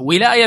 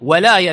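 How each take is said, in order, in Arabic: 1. أول حركة هي صوت 'i'. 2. أول حركة هي صوت 'a'. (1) "ولاية بالكسر يعني الملك والإمارة" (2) "ولاية بالفتح المحبة والنصرة"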